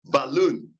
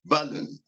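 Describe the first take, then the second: First: "balloon" with stress on LOON; stress on final syllable. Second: "balloon" wrongly stressed on BAL; stress on first syllable. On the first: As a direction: lean on the second syllable of "balloon". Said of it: "The final syllable of the word balloon takes stress". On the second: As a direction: hit the first syllable of "balloon", lighter LOON. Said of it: "not, uh". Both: Shown as a demonstration.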